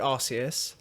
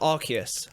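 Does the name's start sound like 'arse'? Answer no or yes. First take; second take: yes; no. First: The name sounds like 'arse, eat us'. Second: The name does not sound like 'arse, eat us'. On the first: This is the older way of saying the name. "used to be Arceus, but because Arceus sounds like arse, eat us" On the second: This is the newer way of saying the name. "It's been changed to Arceus"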